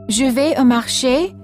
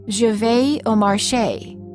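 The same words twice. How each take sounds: First: It is said with a native French accent. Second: It is said with an American accent.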